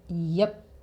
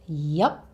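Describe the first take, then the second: First: The vowel is a relaxed schwa sound. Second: The vowel is the u sound of up. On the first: "with our favorite schwa sound" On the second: "you can say it with an up sound"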